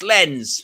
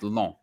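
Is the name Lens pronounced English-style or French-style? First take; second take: English; French. First: It is said with a plain English vowel. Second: It is said with a French nasal vowel. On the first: The speaker calls it wrong. "those typical, you know, like British English people" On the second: The speaker calls it right. "given the French accent"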